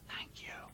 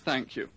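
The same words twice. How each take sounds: First: It is said in a whisper. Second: It is said in a plain, neutral way.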